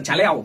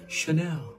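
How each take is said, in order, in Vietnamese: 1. Tên này bắt đầu bằng âm 'ch'. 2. Tên này bắt đầu bằng âm 's' nhẹ. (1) "đừng đọc là Chanel" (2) "đổi chữ chờ thành chữ sờ và đọc một cách hờ hững"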